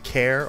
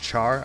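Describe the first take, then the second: First: The name starts with a k sound. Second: The name starts with a ch sound. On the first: The speaker calls it wrong. "Do I pronounce it as Care" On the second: The speaker calls it right. "or do I pronounce it as Char?"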